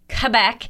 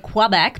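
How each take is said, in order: First: The word begins with a plain k sound. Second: The word begins with a kw sound. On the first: The speaker calls it right. "like without qua" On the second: The speaker calls it wrong. "I'm probably saying that wrong because I want to say Quebec"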